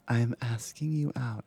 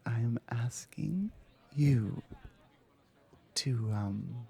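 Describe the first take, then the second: First: Said in the usual way. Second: Whispered repeat. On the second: Acted.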